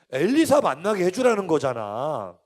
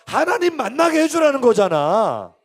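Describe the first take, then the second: First: 엘리사 said firmly at moderate volume; emphatic point. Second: 하나님 pushed high and loud; stress on 하나님. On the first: Preacher explaining the letter's real request, measured emphasis on 엘리사. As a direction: make the point on 엘리사, then let it fall. First take, Elisha named. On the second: Preacher correcting Elisha to God, loud emphasis on 하나님. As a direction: proclaim it, hitting 하나님 hard. Repeats, substituting God, louder. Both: Real, not acted.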